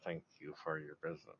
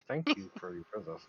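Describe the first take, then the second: First: Through gritted teeth. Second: Higher, louder forced courtesy; forced politeness. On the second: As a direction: bite it out with fake politeness. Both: Acted. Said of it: "grit through my teeth".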